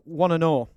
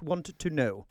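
First: The words 'want to' blend into 'wanna'. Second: The words 'want to' are said separately. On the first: The speaker calls it wrong. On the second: The speaker calls it right.

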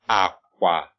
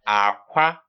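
First: Both syllables are said on a low tone. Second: The first syllable is low, the second high. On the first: It means bed. "So bed would be low tones" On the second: It means egg. "the next one is actually low tone, high tone"

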